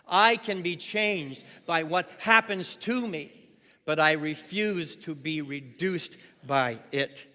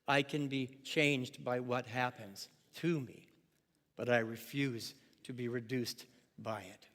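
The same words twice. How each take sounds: First: It is read in a powerful voice. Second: It is read in a calm voice.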